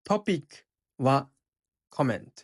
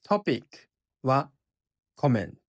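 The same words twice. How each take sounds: No difference in how they are said.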